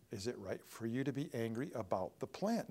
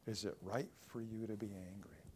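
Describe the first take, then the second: First: Said in the usual way. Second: Softly and gravely, much softer; a hushed, searching rebuke; quiet. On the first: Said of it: "Then God said to Jonah". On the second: Shown as a demonstration. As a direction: lay the question gently and low. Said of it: "remember that verse".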